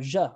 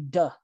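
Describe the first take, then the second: First: The word starts with a j sound. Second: The word starts with a d sound. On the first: "or je or something like that" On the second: "A lot of times people say duh"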